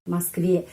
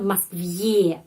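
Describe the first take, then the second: First: The word ends in a plain e sound. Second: The word ends in a ye sound. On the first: The speaker calls it right. "Москве e" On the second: The speaker calls it wrong. "Tapi bukan Москве"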